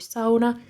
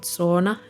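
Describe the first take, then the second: First: The word has a Finnish pronunciation. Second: The word has an English-style pronunciation. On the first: The speaker calls it right. "that's actually how you pronounce it in Finnish" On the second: The speaker calls it wrong. "not sauna"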